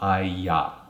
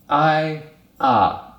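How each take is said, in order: First: A y sound links the two vowels. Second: The two vowels are said separately without linking.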